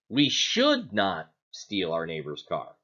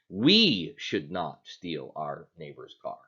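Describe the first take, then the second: First: The stress falls on the word "should". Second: The stress falls on the word "we". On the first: We ought not to, but we will anyway. "Are we saying that we shouldn't, but we're going to anyway?" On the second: Others may do it, just not us. "is it okay for someone else to do it as long as we don't do it?"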